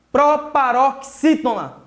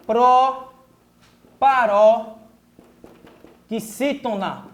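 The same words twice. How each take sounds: First: "Proparoxítona" joined up but still slow and deliberate; "Proparoxítona" as one careful word; whole word, slowly. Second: "Proparoxítona" very slowly, with long pauses between pro, paró and xítona; "Proparoxítona" broken up slowly for pupils; syllable by syllable. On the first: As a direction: put the pieces of "Proparoxítona" back together. Teacher repeats the term joined up. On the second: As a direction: dictate "Proparoxítona" in widely spaced chunks. Teacher dictates new term in syllables. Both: Shown as a demonstration.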